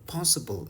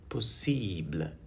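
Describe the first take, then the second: First: It is pronounced with English sounds. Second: It is pronounced with French sounds. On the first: "possible in English" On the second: "possible in French"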